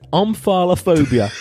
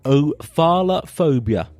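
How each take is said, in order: First: The word starts with an 'm' sound. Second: The word starts without an 'm' sound. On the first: The speaker calls it right. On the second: The speaker calls it wrong.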